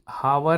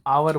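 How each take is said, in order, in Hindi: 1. इस शब्द की शुरुआत 'h' की ध्वनि से होती है। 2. इस शब्द की शुरुआत स्वर की ध्वनि से होती है। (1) "हावर नहीं बोलते" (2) "हम आवर बोलते हैं"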